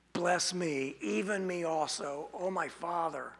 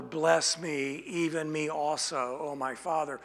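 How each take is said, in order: First: Softer, sinking plea as the blessing slips away; quiet desperate plea. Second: A touch of desperation, falling at each phrase end; begging father for a blessing, mildly desperate; desperate plea. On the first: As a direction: plead quietly and fade out. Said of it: "It is a request of desperation". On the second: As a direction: plead with the father, understated. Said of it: "You could hear the desperation in his voice". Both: Acted.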